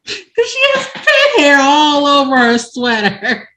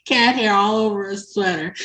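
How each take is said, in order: First: High, loud, breaking up with laughter; laughing. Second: Said in the usual way. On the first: Real, not acted. Storyteller revealing the pet hair punchline, laughing. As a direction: squeal the punchline through laughter. Cracks up at her own punchline.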